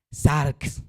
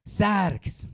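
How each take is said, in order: First: "Sarx" dicho claramente, con acento en la a; pronunciación de sarx. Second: "Sarx" más alto, con la s final alargada; repetición de sarx. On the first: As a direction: pronuncie "Sarx" despacio y claro. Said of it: "S A R X con tilde en la A". ("Sarx" con la a tónica, bien articulado) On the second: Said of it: "¿Cómo es?". ("Sarx" más agudo, s final sostenida) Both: Shown as a demonstration.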